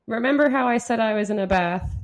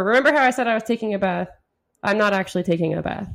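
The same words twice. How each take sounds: First: Said in the usual way. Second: Faster regular voice. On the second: Shown as a demonstration. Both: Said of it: "Just regular voice".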